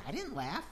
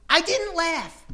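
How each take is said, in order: First: Soft, mumbled denial; muttered denial. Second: High, loud protest; indignant denial. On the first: Sarah quietly denying the Lord a second time. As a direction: say it under your breath. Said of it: "She says". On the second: Sarah loudly denying to the Lord that she laughed. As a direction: deny it hotly, almost squeaking. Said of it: "She denies it". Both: Retold or imitated.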